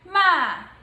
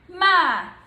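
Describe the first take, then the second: First: It is said in the fourth tone. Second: The same.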